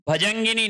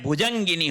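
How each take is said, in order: First: भजंगिनी with "bha" first; wrong pronunciation. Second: भुजंगिनी with "bhu" first; correct pronunciation. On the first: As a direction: open भजंगिनी on an a vowel. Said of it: "भजंगिनी नहीं होता है". (भजंगिनी की शुरुआत "भ" से) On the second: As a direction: open भुजंगिनी on a u vowel. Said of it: "भुजंगिनी होता है". (भुजंगिनी की शुरुआत "भु" से) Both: Shown as a demonstration.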